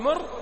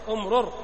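First: The doubled consonant is merged into one syllable. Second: The doubled consonant is split into two sounds. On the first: "تبقي الإدغام" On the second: "تفك الإدغام"

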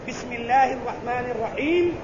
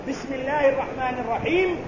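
Both takes have the same delivery.

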